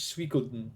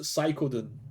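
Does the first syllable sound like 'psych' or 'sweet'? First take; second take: sweet; psych. First: The first syllable sounds like 'sweet'. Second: The first syllable sounds like 'psych'. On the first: This is the official pronunciation. "The official pronunciation of Suikoden is" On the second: This is how the speaker personally says it. "I pronounce it Psychoden"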